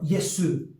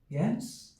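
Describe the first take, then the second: First: An extra vowel is added after the final s. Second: The word ends cleanly on the s sound. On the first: The speaker calls it wrong. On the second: The speaker calls it right.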